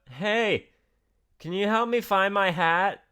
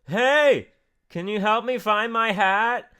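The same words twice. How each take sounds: First: It is said at normal, softer volume. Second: It is said noticeably louder.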